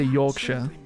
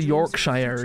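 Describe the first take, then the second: First: The ending is reduced to a short 'sher'. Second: The ending is pronounced fully like 'shire'. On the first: The speaker calls it right. "You say Yorkshire, but it's spelled Shire" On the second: The speaker calls it wrong. "You don't say Yorkshire"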